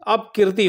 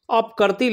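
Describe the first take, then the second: First: अपकीर्ति said with a long kee, apkeerti; correct form. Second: अपकर्ती said with a short a in the middle, apkarti; wrong form read out. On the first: Teacher gives students the correct spelling, with a long kee. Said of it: "होता है". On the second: Teacher reads the misspelt word aloud for students, short kar. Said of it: "लिखा है". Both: Shown as a demonstration.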